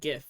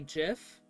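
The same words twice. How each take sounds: First: It starts with a hard G sound. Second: It starts with a soft G sound. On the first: This is how the listener said it. "Because you used the hard G" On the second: This is how the creator says it should be. "the creator of it said that it's technically supposed to be GIF"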